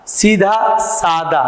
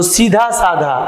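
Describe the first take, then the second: First: सादा with a plain, unbreathy द, said slowly; correct unaspirated. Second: सीधा साधा with a breathy धा in both words; wrong aspiration. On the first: Teacher slowly models the correct सादा with an unaspirated द. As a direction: slowly give the right सादा with a clean द. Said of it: "जबकि होता है सीधा सादा". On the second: Teacher demonstrates the mistaken साधा with a breathy धा. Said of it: "अब सीधा कहते हैं, साधा कहते हैं". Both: Shown as a demonstration.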